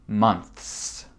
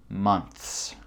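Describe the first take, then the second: No difference in how they are said.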